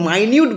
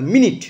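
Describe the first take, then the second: First: The first syllable sounds like 'my'. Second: The first syllable sounds like 'min'. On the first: Very detailed or thorough. "যখন আমি এটাকে মাইনিউট বলবো" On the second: A unit of time. "মিনিট মানে হচ্ছে সময়ের একক"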